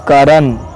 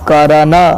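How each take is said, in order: First: The final consonant ends without any vowel. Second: The final consonant is followed by a full vowel. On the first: The speaker calls it right. "न आधा ही उच्चारित हो रहा है" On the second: The speaker calls it wrong. "ऐसे नहीं है"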